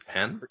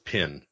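First: The vowel is open, so it sounds like pen. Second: The vowel is raised, so it sounds like pin. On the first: It is the speaker's own usual way. "What, creek and pen?" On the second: It imitates a regional accent. "Brad says pin"

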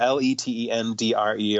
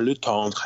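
First: The name is pronounced the plain English way. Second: The name is pronounced the French way.

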